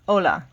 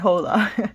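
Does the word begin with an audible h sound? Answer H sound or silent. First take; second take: silent; H sound. First: The word starts with no h sound. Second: The word starts with an audible h sound. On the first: The speaker calls it right. "you could almost just put your finger over it and say it like that" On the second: The speaker calls it wrong. "Don't say hola"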